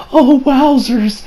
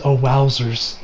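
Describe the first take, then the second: First: High, slow, drawn-out wonder; mock awe. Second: Said in the usual way. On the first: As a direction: act out being dreamily amazed. Voicing Koichi's awe, then repeats it plainly.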